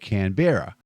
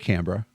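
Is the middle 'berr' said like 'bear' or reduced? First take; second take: like bear; reduced. First: The middle syllable sounds like 'bear'. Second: The middle syllable is reduced and quick. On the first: This is how Americans say it. The speaker calls it wrong. "like there's a bear living in Parliament House" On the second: This is how Australians say it. The speaker calls it right. "we say Canberra"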